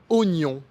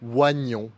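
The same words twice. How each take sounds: First: The first vowel is a plain 'o' sound. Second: The first vowel is a 'wa' sound. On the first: The speaker calls it right. "il existe une exception pour le mot oignon" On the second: The speaker calls it wrong. "qu'on ne prononce pas oignon"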